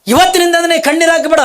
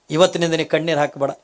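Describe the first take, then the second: First: High, loud booming divine command; voice from the sky. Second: Said in the usual way. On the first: Acted. The heavenly voice ordering Kalavve to stop crying, booming. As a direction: proclaim it like a voice from heaven. Akashvani ಹಾಕದೆ.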